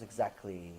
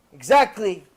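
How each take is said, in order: First: Very low, soft single word; quiet confirmation. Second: Much louder, punched single word; emphatic confirmation. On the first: Wife confirms her lesson to husband, quietly. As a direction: drop the voice right down, knowingly. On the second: Wife drives her lesson home to husband, emphatically. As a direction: hit it hard as proof of the point. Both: Retold or imitated.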